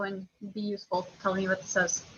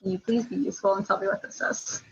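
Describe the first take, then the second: First: Curt, bossy order with no please; blunt demand. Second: Polite request, leaning on please; asking nicely. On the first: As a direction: snap the request like a command. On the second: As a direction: soften it into a courteous ask. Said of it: "You can ask nicely to a friend". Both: Real, not acted.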